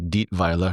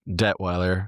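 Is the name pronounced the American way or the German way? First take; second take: German; American. First: The name is pronounced with a German sound. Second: The name is pronounced with an American sound. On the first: "I want to say it properly. And this is a German way" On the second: "Detweiler is the Americanized version"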